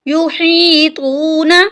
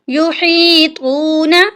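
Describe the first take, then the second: No difference in how they are said.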